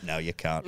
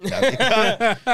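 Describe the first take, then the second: First: Low, very soft denial; hushed self-rebuttal. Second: High-pitched mock protest; retold outcry. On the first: Retold or imitated. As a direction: tell yourself quietly, under your breath. Hushed answer to his pep talk. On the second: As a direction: burst out with it in a much higher voice. Same line repeated as outcry.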